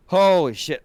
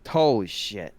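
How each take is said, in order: First: Higher and louder burst; excited exclamation. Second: Said in the usual way. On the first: Real, not acted. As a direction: blurt it out in real delight. Reacting to Wind Waker.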